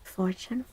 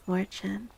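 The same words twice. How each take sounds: The two takes are said the same way.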